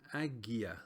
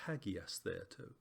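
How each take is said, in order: First: The word starts directly with a vowel sound. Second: The word starts with an h sound. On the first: The speaker calls it wrong. "not agiastheto" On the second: The speaker calls it right. "you actually stick an H on the front"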